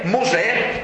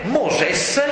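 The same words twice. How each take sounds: First: Said in the usual way. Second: "Moses" with a final s sounded; Egyptian form. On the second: Shown as a demonstration. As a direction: end "Moses" on an audible s.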